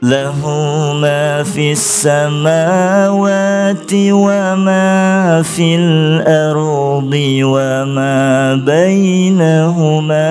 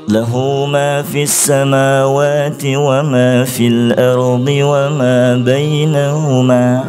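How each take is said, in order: First: The pitch starts high and steps lower. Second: The pitch stays level, ignoring the meaning. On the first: The speaker calls it right. "berusaha mengubah untuk uh, sesuai dengan makna" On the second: The speaker calls it wrong. "Stop, di stop langsung oleh gurunya"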